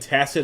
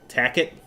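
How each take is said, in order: First: The middle consonant is a soft s sound. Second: The middle consonant is a hard k sound. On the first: The speaker calls it right. "instead of saying tacit" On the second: The speaker calls it wrong. "he says like tack it"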